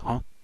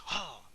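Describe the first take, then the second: First: A calm, subdued grunt, barely surprised. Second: A startled, vulnerable gasp, caught off guard. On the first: He is calmly aware of the threat. The speaker calls it right. "It should be a little more subdued" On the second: He is badly caught off guard. The speaker calls it wrong. "Goku sounding vulnerable"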